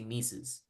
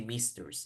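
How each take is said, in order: First: The word is said without an R sound. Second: The word is said with an R sound. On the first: The speaker calls it right. "you say missus" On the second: The speaker calls it wrong. "you don't say misters"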